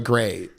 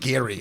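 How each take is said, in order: First: The surname is said as Gray. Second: The surname is said as Gary. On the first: The speaker calls it wrong. "I've been saying it wrong" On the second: The speaker calls it right. "it's Lorraine Gary"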